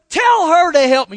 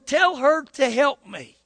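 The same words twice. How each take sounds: First: It is said in an exasperated, complaining tone. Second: It is read in a neutral tone.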